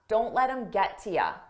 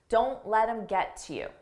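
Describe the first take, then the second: First: The last word is reduced to ya. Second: The last word is a full you. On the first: "Many native speakers will drop this to ya" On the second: "But I said you"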